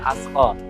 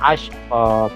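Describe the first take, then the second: First: The middle consonant is a plain 's' sound. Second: The middle consonant is an 'sh' sound. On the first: The speaker calls it wrong. "tidak boleh asqa" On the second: The speaker calls it right. "Seperti shin"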